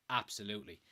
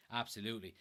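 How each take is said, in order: Both takes have the same delivery.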